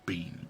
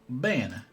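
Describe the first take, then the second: First: The word is said with a long ee vowel. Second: The word is said with a short eh vowel. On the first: "I'm still gonna call it bean" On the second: "Yeah, it is Ben. It's Italian"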